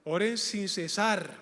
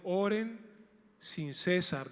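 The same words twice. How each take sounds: First: "cesar" stressed on the second syllable, ce-SAR; correct stress. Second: "cesar" stressed on the first syllable like the name César; wrong stress. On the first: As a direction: say "sin cesar" with the stress at the end. ("cesar" con acento en la segunda sílaba) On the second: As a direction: misread "sin cesar" as "sin César". ("cesar" pronunciado como "César", acento en la primera sílaba) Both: Shown as a demonstration. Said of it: "El acento va en la segunda sílaba, no en la primera".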